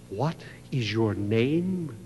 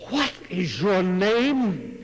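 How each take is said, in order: First: Stern question. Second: Slow, higher, louder demand; king reddening with rage, slow and loud; rising anger. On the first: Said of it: "the smile left the king's face". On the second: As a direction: let the anger build in every word. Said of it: "the king began to crimson". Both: A narrator's reading.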